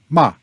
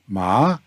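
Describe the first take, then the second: First: The pitch falls sharply from high to low. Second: The pitch dips down, then rises. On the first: The word is a curse. "And ma is a curse" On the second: The word means horse. "Ma is horse"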